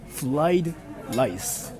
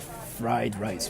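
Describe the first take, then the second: First: The words are said with L sounds. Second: The words are said with R sounds. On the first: The speaker calls it wrong. "I have a friend who says" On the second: The speaker calls it right. "instead of like a"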